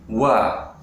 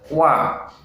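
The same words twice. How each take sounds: First: The syllable is thick and breathy. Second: The syllable is light and clear. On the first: The speaker calls it wrong. "dibaca dengan tebal, dengan angin. Wa itu tentunya tidak benar ya" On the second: The speaker calls it right. "Yang benar wa"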